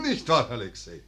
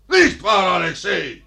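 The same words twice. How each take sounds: First: Said in the usual way. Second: Loud nudge on nicht; insistent louder repeat. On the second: Acted. Father prodding his silent son, louder insistent repeat. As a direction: repeat it, demanding an answer.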